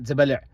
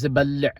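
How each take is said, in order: First: Zabal'a with one short, undoubled L; single L. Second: Zabal'a with a long, held double L; doubled L. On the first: Teacher showing learners what to avoid, single-L zabal'a. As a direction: say zabal'a without doubling the L. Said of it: "So it's not zabal'a". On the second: Teacher showing learners the gemination, doubled-L zabal'a. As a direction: hold the L in zabal'a twice as long. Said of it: "these two dots indicate there's a doubling". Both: Shown as a demonstration.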